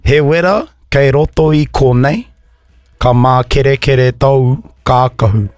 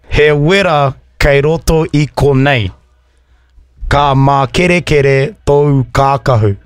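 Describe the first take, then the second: First: It is said at a faster pace. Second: It is said at a slower pace.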